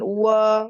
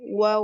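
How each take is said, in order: First: The wa sound is thick and heavy. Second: The wa sound is thin and light. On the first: The speaker calls it wrong. "Jangan wa" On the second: The speaker calls it right. "wanya tipis ya"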